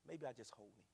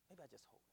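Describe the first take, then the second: First: Said in the usual way. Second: Much softer, tender echo; hushed repeat. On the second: Real, not acted. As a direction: say it again almost to yourself. Reflecting on comforting the man.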